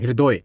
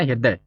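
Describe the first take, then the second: First: The name ends with a rounded 'oy' sound. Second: The name ends with an 'ay' sound. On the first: This is how it is said in Bangladesh. "पर वहाँ" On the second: This is the Hindi form of the name. "हिंदी में उसको क्या कहेंगे, हृदय कहेंगे ना"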